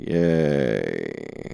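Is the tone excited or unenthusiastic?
unenthusiastic. It is said flat and unenthusiastic.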